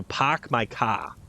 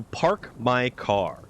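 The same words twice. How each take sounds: First: Slow Massachusetts "pahk my cah"; Massachusetts accent. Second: PARK and CAR with full R sounds, drawn out; R's pronounced. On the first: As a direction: drop the R's like a New Englander, Massachusetts style. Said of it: "they don't pronounce their R's". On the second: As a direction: say "park my car" slowly, hitting both R's. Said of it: "any logical, reasonable, breathing human being who would say". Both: Shown as a demonstration.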